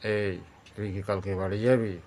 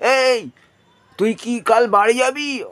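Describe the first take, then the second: First: It is said at a lowered, deep pitch. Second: It is said at a raised, high pitch. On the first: The speaker is angry. "তাহলে এটা হয়ে গেল আরও নিচের দিকে।" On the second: The listener is far away. "অর্থাৎ এটা ওপর দিকে উঠে গেল।"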